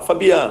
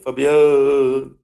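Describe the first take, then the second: First: The name is said in a plain voice. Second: The name sounds bleating and echo-like. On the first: "você pede para ela" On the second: "O som sai meio egofônico"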